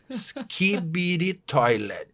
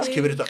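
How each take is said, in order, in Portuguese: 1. O nome é dito com o 'bidi' completo no meio. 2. O nome é dito com o 'bber' curto no meio.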